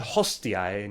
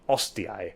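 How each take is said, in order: First: The word begins with an audible H sound. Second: The word begins directly with a vowel. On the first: The speaker calls it right. "say hostiae" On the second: The speaker calls it wrong. "not ostiae"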